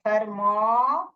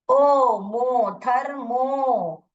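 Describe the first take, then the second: First: "थर्मो" slowly, the O turned to a held "aa"; slow sounding-out with "मो" said as मॉ; open "aa" sound. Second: "ओ, मो, थर्मो" with a long, held O; long O sound. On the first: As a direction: draw out "थर्मो" as थर-मॉ. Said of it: "जब ही आ sound करेगा". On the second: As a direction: slowly stretch the O in "मो" like the letter's name. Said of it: "long sound बोलूंगी". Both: Shown as a demonstration.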